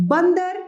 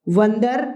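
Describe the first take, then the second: First: बंदर said with a clear b at the start; बंदर with a firm b; correct pronunciation. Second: वंदर starting on v instead of b; wrong pronunciation. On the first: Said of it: "सही शब्द है". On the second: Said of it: "गलत शब्द है". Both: Shown as a demonstration.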